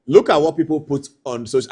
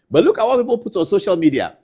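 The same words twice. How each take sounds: First: Said in the usual way. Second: "look" hit higher and louder, then falling; stress on look. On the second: Shown as a demonstration. Host urging viewers to see the post, stress on "look". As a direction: lean hard on "look" to grab attention.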